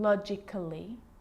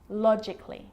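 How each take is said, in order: First: An extra vowel is sounded before the final ly. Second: No extra vowel is sounded before the final ly. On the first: The speaker calls it wrong. "I'm not pronouncing" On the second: The speaker calls it right. "Cut the A out"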